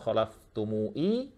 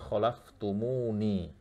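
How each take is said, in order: First: The word ends with mu then i, no n. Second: The word ends with mu then ni. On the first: The speaker calls it wrong. "atau khalaftumui" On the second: The speaker calls it right. "tapi khalaftumuni"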